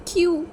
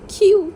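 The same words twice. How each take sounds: First: Crying question. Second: Crying out much louder and higher; anguished cry. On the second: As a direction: wail it out in despair. (रोते हुए ज़ोर से चीखना) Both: A narrator's reading. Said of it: "wing अब फूट फूट के रोने लगा था".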